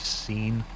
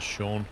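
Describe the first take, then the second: First: The name rhymes with bean, starting with s. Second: The name does not rhyme with bean. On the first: This is how the spelling suggests it should be said. "when it's actually Scene? Looks like Bean, but with an S" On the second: This is how the name is normally said. "you say Sean as Sean"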